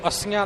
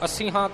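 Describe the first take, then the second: First: The ending is said without an h sound. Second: The ending is said with an h sound. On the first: The speaker calls it wrong. "इनू अस्सियां नहीं बोल जाना" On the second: The speaker calls it right. "हाहे दा उचारण करके"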